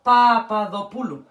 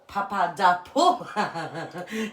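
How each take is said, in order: First: Papadopoulou with a Greek ð and stress on pou; Greek pronunciation. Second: Papadopou- said the English way, pa-pa-DAH-po, slow and laughing; Papadopou- stretched slowly with an English accent, breaking into a laugh; English accent try. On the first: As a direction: Papadopoulou pronounced natively in Greek, not anglicized. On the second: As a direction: drag out Papadopou- anglicized with a laugh. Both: Shown as a demonstration. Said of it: "trying to say that with an English accent".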